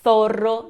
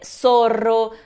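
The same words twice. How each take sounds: First: The first sound is a lisped TH. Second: The first sound is a hissing S. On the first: It is the way in Spain. "língua entre os dentes" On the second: It is the Latin American way. "Na América, o som de S, de Z ... é tudo a mesma coisa"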